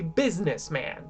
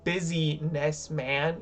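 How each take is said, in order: First: The first part sounds like biz. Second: The first part sounds like the word busy. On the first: The speaker calls it right. "You say businessman, right? Which is like B I Z N E S" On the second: The speaker calls it wrong. "You don't say busyness man"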